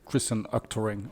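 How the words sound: The name is said with American pronunciation. "in American would be like"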